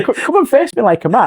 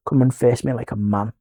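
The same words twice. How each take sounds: First: High, worked-up retold dare; angry challenge. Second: Low, soft challenge; controlled challenge. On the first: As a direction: replay the dare with rising agitation. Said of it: "but I got angry". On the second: Retold or imitated. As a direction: issue the dare low and restrained. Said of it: "and I said, "Right".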